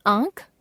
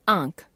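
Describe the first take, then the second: First: आंख with the pitch rising; आंख left hanging on a rise; error example, rising. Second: आंख lower, falling; corrected form, falling. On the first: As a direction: lift the end of आंख. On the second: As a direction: close off आंख with a fall. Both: Shown as a demonstration. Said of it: "अनुस्वार और अनुनासिक संबंधी अशुद्धियां".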